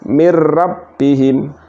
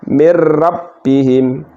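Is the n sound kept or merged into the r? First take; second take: merged; merged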